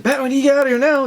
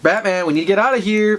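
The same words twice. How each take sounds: First: Fast, higher-pitched urgent plea; frantic urging. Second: Acted plea to get going; mildly raised, urgent call; urging. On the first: Retold or imitated. Flash hurrying Batman out of here, frantic. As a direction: rush it out in mock panic. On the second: Urging Batman to get out of here, urgent.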